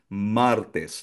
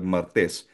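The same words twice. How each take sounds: First: The stress is on the first syllable. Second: The stress is on the second syllable. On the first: The speaker calls it right. "nasa first syllable o la primera sílaba ang ah, asento" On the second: The speaker calls it wrong. "'Di ba sa Tagalog martes?"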